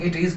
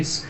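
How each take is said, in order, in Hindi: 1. दोनों शब्द पूरे और अलग-अलग बोले जाते हैं। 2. दोनों शब्द मिलकर एक छोटे अक्षर में बदल जाते हैं।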